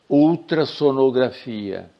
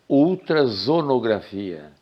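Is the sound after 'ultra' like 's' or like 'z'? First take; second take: s; z. First: The consonant after ultra is a hissing s. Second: The consonant after ultra is a buzzing z. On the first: The speaker calls it right. "Eu escrevo com dois S" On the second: The speaker calls it wrong. "se eu escrever com um S só, eu teria que ler"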